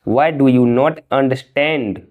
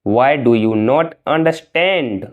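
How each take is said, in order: First: Said in the usual way. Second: Slow, careful model sentence; slow and clear. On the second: Shown as a demonstration. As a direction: lay out each word for learners. (धीरे और साफ़) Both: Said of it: "तुम समझते क्यों नहीं हो?".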